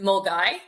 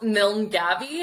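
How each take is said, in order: First: The name sounds like 'mull-guy', letters dropped. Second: The name is read letter by letter as spelled. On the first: The speaker calls it right. "you actually pronounce it Mulgai" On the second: The speaker calls it wrong. "it's spelt Milngavie"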